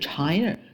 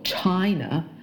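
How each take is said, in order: First: The word ends with an r-colored curl. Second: The word ends without an r-colored curl. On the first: The speaker calls it wrong. "不是China" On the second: The speaker calls it right. "我们的国家叫做China"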